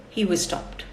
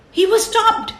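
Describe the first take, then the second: First: Said in the usual way. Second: He was stopped said higher and louder; dramatic higher, louder "He was stopped"; stressed announcement. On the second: Shown as a demonstration. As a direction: hit it like a surprise.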